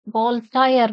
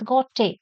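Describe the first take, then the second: First: Voltaire said as "gol-tire"; Indian English pronunciation. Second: Gautier said as "go-tay"; French pronunciation. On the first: Teacher showing the Indian English reading, Voltaire as "gol-tire". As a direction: say Voltaire as "GOL-tyer", L and R sounded. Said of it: "Indian English, Voltaire we may pronounce". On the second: Teacher giving the French pronunciation, Gautier as "go-tay". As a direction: say Gautier with silent L and R. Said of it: "as per the French pronunciation". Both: Shown as a demonstration.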